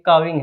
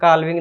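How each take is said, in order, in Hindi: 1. इस शब्द में L की ध्वनि मौन रहती है। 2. इस शब्द में L की ध्वनि का उच्चारण होता है। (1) "एल साइलेंट है" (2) "काल्विंग नहीं बोलेंगे"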